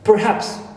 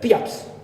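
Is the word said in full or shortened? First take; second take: full; shortened. First: It is said in full with both syllables. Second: It is said quickly, dropping the vowel and r.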